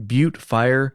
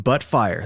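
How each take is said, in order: First: Butte is not pronounced like the word butt. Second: Butte is pronounced exactly like the word butt.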